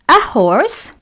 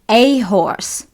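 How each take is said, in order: First: The article is a short, weak 'uh' sound. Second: The article is a full, strong 'ay' sound. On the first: It is said in a relaxed, general way. "التلفظ الأول اللي هو بكل بساطة صوت ال a" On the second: A particular thing is being emphasized. "A أتلفظها لما أريد أخلي emphasis على كلمة معينة"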